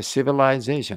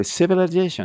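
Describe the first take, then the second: First: "civilization" with a long "lai" in the middle; own preferred reading. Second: "civilization" with a short weak vowel after the l; alternative reading. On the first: Teacher showing their own longer reading, full-lai pronunciation. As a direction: say "civilization" as si-vi-LAI-ZAY-shun, full diphthong. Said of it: "私はcivilizationって言っちゃうんです". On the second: Teacher showing how some people read it, short-vowel pronunciation. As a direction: say "civilization" as si-vuh-luh-ZAY-shun. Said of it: "って読む人もいます". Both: Shown as a demonstration.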